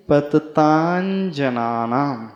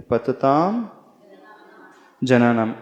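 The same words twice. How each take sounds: First: पततांजनानाम said slowly with a palatal nasal before ज; joined sandhi reading. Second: पतताम and जनानाम said apart; separate words. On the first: Teacher slowly models the joined reading पततांजनानाम. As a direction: draw out पततांजनानाम as one word. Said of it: "यानी च वर्ग का अंतिम अक्षर". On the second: Teacher reading पतताम जनानाम as separate words. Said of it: "तो संस्कृत के अनुसार कौन सा उच्चारण करना चाहिए?". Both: Shown as a demonstration.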